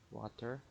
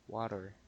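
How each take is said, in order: First: The middle consonant is a clear T sound. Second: The middle consonant sounds like a soft D. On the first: "Filipino accent" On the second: "Then it's like a D. It sounds American"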